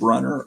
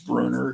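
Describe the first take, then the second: First: The name is pronounced the English way. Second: The name is pronounced the German way. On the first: This is the old pronunciation. "I used to pronounce it Brunner" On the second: The name is assumed to be German. "because it looks like a German name"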